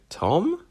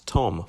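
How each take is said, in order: First: It is said with a questioning, unsure intonation. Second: It is said as a finished statement. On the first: It sounds unsure of the name. The speaker calls it wrong. "Like you're not sure what your own name is" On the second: It states the name with certainty. The speaker calls it right. "full stop"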